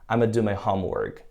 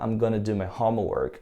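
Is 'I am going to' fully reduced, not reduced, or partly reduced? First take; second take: fully reduced; partly reduced. First: It is squeezed into 'I'ma'. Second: It is contracted to 'I'm gonna'. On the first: "eu já escutei no lugar de I'm gonna, I'ma" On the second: "O cara pode falar"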